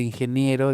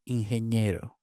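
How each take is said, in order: First: Said in the usual way. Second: "ingeniero" said as "ingeñero"; N palatalized to ñ. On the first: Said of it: "En lugar de". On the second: Shown as a demonstration. Linguist showing what they say for engineer, palatal ñ. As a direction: merge ni into ñ in "ingeniero". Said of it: "se convierte en ñ ante I".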